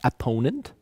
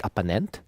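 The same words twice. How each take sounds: First: Opponent with the stress on PO; second syllable of "opponent" carries the stress. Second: Opponent stressed on the first syllable, OP-ponent; misplaced stress at the start of "opponent"; wrong first-syllable stress. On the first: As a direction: say "opponent" as op-PO-nent. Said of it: "stressing the second syllable". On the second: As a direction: say "opponent" as OP-uh-nent. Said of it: "not opponent". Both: Shown as a demonstration.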